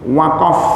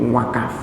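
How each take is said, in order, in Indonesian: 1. Konsonan tengahnya adalah q belakang yang dalam. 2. Konsonan tengahnya adalah k biasa. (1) "Jadi qaf ketika masuk ke Indonesia berubah menjadi kaf" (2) "menjadi wakaf"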